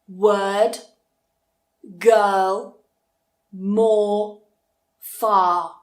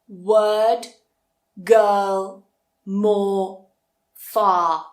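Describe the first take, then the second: The two takes are said the same way.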